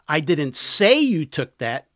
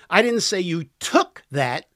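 First: The stress is on the word 'say'. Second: The stress is on the word 'took'. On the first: The speaker only hinted it. "I implied it" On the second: The listener borrowed it. "You borrowed it"

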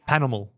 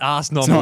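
First: The S at the end of the first word is silent. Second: The S at the end of the first word is sounded. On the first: The speaker calls it right. "you don't pronounce the S" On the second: The speaker calls it wrong. "So it's not"

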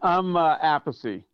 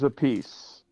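First: The name is said the family's original way. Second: The name sounds like the phrase 'a piece'. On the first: This is the family's traditional pronunciation. "That's the way my father pronounced it" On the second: This is the changed, anglicized pronunciation. "Carmine's a piece"

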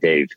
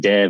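First: The vowel sounds like the 'a' in Dave. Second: The vowel sounds like the 'e' in bed. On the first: This is how the parents say the name. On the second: This is how the teachers say the name.

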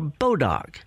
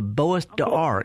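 First: It is said as the local form bodock. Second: It is said with the original French pronunciation. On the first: The speaker calls it wrong. "that's how we say Bois d'Arc" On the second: The speaker calls it right. "It's a French word"

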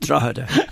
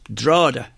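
First: The word is said fully, like 'Drog-heda'. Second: The word is said short, like 'Drawda'. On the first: This is how outsiders say it. The speaker calls it wrong. "Not Drogheda" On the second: This is how the locals say it. The speaker calls it right. "It's Drogheda"

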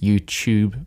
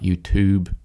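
First: It is said with a non-American pronunciation. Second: It is said with an American pronunciation. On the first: The speaker calls it right. "it's YouTube" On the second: The speaker calls it wrong. "not YouTube, if you listen to too many Americans"

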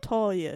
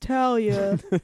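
First: The first syllable sounds like the word 'tall'. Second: The first syllable does not sound like 'tall'. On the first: The speaker calls it wrong. "not Talia, because I'm not tall" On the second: The speaker calls it right. "it's Talia"

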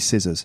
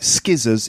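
First: The word begins with a plain s sound. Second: The word begins with a hard k sound. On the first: The speaker calls it right. "It's actually scissors" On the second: The speaker calls it wrong. "It looks like skizzers"

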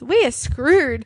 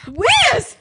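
First: It is said in a flat, gloomy tone. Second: It is said in a high, upbeat tone.

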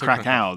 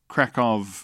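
First: The name is pronounced the English way. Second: The name is pronounced the Polish way. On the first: Locals would not understand it. The speaker calls it wrong. "if you said Krakow, they'd go, ma" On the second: This is how locals say it. The speaker calls it right. "how you'd read it if you were in Poland"

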